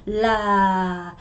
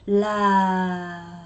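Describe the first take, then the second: First: The pitch falls on the word. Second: The pitch falls on the word.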